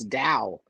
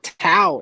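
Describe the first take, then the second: First: The word begins with a D sound. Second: The word begins with a T sound. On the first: The speaker calls it right. "It's Dow" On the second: The speaker calls it wrong. "not Tao"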